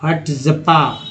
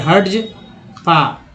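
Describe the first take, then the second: First: Said in the usual way. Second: हटजपा drawn out slowly, each sound clear; slow repeat. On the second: Shown as a demonstration. Teacher repeating the word slowly for students. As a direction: stretch हटजपा out for the class. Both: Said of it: "ठीक है, हटजपा".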